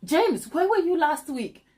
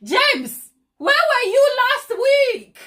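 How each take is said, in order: First: Milder pretend scolding, a little higher; a half-serious telling-off; teasing a viewer with mild mock anger; mock mad. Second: Hammed-up outrage, much higher and louder, slow; big theatrical telling-off; mock mad. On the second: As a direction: pretend to scold him, drawn out. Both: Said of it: "Now I'm getting mad".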